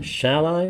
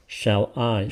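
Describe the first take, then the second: First: "Shall I" higher, rising on I; trying other stress. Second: "Shall I" in two even, separate beats, falling on I; trying stress pattern. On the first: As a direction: test "Shall I" with a lifted, questioning end. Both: Shown as a demonstration. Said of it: "it could be shall I".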